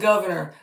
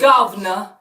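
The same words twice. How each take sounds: First: It is said in a plain American accent. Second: It is said in an imitated Liverpool accent. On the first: "instead of" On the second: "the Scouse accent"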